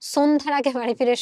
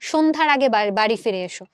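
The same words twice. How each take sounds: First: The first word starts with an s sound. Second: The first word starts with a sh sound. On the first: The speaker calls it wrong. "আমরা বলি না" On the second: The speaker calls it right. "আমরা কি বলি?"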